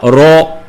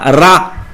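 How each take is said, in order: First: The vowel sounds like a darker 'o'. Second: The vowel sounds like an open 'a'. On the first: The speaker calls it right. "il faut dire Ro, avec O R, non pas avec A" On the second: The speaker calls it wrong. "on ne dit pas Ra"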